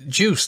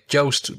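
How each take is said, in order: First: The vowel sounds like the vowel in 'juice'. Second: The vowel sounds like the vowel in 'toast'. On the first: The speaker calls it wrong. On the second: The speaker calls it right. "He said it rhymes with toast"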